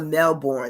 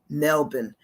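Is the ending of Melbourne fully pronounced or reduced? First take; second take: fully pronounced; reduced. First: The ending -bourne is fully pronounced. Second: The ending -bourne is reduced and weak. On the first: It marks someone who is not from there. The speaker calls it wrong. "They don't say Melbourne" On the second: It is the way local people say it. The speaker calls it right. "They say Melbourne"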